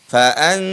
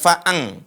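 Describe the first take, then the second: First: The final nasal sounds like n. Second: The final nasal sounds like ng. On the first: The speaker calls it right. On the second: The speaker calls it wrong.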